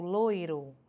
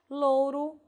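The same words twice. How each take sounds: First: "loiro" devagar, com OI claro; variante com OI. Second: "Louro" devagar, com OU claro; variante com OU. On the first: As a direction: alongue o ditongo de "loiro". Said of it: "ora vou ter grafado com oi". ("loiro" dito lôi-ro) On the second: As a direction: alongue o ditongo de "Louro". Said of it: "ora grafado com ou". ("Louro" dito lôu-ro) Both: Shown as a demonstration.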